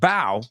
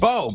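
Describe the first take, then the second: First: Its vowel differs from the vowel of 'foe'. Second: Its vowel matches the vowel of 'foe'. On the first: "but not with bow" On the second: "foe rhymes with bow"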